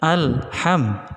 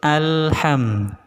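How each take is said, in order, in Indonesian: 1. Ada jeda di dalam kata. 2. Kata itu mengalir tanpa jeda. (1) "itu putus" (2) "nyambung terus"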